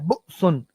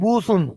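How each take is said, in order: First: A glottal catch breaks the vowel before the s. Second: A smooth long vowel runs into the s. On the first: The letter is a hamza. "लेकिन ये हमजा है" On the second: The letter would be a long-vowel waw. "अगर ये वाव होता तो हम पढ़ते बूसुन"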